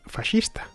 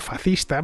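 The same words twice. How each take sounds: First: It is pronounced the Italian way. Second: The s sound before the c is dropped. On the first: "lengua en la que se pronuncia fascista" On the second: "comiéndose la ese"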